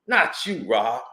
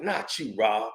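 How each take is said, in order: First: "Not you, Rob" again at full normal volume with a falling "Not"; firm repeat of "Not you, Rob" with stress on "Not"; firmer repeat. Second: Low, soft "Not you, Rob" spoken almost under the breath; soft first take of "Not you, Rob"; hushed plea. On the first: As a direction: press "Not you, Rob" harder the second time. Quoted plea, repeated firmer. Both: Retold or imitated.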